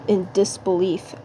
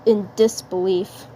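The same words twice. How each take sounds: The two takes are said the same way.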